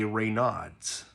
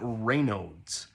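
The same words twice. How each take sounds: First: It is said the way English spelling suggests. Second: It is said the French way. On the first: The speaker calls it wrong. "if you were just looking at it in English, you would probably say" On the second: The speaker calls it right. "which is how it's actually pronounced"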